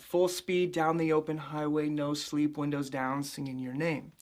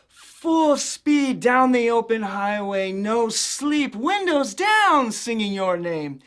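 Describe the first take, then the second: First: The pitch stays fairly steady throughout. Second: The pitch jumps widely high and low throughout. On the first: "the phrase I was using" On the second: "just kind of go all over the place"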